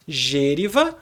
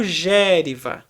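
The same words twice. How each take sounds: First: "gêriva" stressed on the first syllable with a closed ê. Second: "gériva" stressed on the first syllable with an open é. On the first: Teacher showing the proparoxytone option, "gêriva" with stressed closed ê. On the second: Teacher showing the proparoxytone option, "gériva" with stressed open é. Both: Shown as a demonstration. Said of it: "você vai pronunciar gêriva ou gériva".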